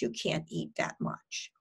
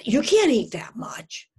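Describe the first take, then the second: First: Soft, low, matter-of-fact; hushed, detached restatement; calmly reframed thought. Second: Louder, insistent inner critic; acted alarm, pushed hard; nagging eating-disorder voice. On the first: Shown as a demonstration. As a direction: drop the alarm and name it quietly. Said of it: "I have them reframe those thoughts". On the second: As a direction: scold like an alarmed voice on the shoulder. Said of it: "this little eating disorder that sits on their shoulders saying".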